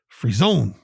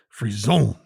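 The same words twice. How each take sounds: First: The stress is on the second syllable. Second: The same.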